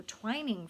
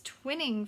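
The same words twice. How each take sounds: First: "twining" with a long i, as in twine; first syllable of "twining" like "twine". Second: "twinning" with a short i, as in win; first syllable of "twinning" like "twin". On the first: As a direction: say "twining" to rhyme with dining. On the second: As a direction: say "twinning" to rhyme with winning. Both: Real, not acted. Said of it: "or twining from the tops".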